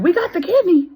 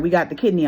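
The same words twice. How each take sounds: First: "We got the kidney." repeated much higher and louder, bursting on "kidney"; thrilled echo. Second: Said in the usual way. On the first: Retold or imitated. A patient echoing the hospital's call, thrilled and much higher. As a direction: shout it back in disbelief and joy. She echoes the news, thrilled.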